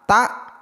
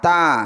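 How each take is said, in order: First: The word ends with a glottal stop. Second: The word ends on an open vowel. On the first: This is the grammarians' way of naming the letter. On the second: This is the recitation scholars' way of naming the letter.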